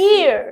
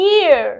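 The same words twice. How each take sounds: Both takes have the same delivery.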